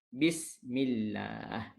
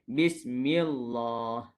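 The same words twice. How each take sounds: First: The lam sound is thin and light. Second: The lam sound is thick and heavy. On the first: The speaker calls it right. "nipis sekiranya berbaris di bawah" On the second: The speaker calls it wrong. "Jangan baca dengan bismillah. Salah"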